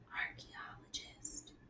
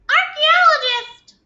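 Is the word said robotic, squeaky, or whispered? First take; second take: whispered; squeaky. First: The word is whispered without full voice. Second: The word is said in a tiny high voice. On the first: "Can you say that in a whisper voice?" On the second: "Can you say it in a mouse voice?"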